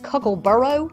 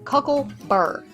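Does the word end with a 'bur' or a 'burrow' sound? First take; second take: burrow; bur. First: The word ends with an extra 'row' syllable. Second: The word ends in a single 'bur' syllable. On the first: This is the name as found when looked up. "the name for these is Cuckleburrow? B U R R O W" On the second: This is how the speaker's community says it. "we called these cuckleburrs"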